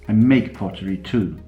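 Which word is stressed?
make. The stress falls on the word make. The pottery is made, not only sold. "I don't only sell it"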